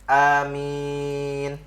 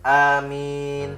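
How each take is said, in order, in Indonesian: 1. Vokal kedua ditahan sangat panjang. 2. Vokal kedua ditahan cukup panjang. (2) "boleh empat"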